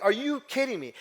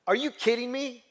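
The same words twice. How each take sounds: First: High, louder repeat of her disbelief; mother on the phone repeating herself, high incredulous yell; mock stunned yell. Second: High, louder cry of disbelief; mother on the phone, stunned son never listened, high incredulous yell; mock stunned yell. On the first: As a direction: press it again, still incredulous. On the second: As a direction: retell mom's outraged disbelief.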